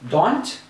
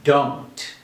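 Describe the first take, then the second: First: The vowel is short and clipped. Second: The vowel is long and glides. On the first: The speaker calls it wrong. "rather than don't" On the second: The speaker calls it right. "we say don't"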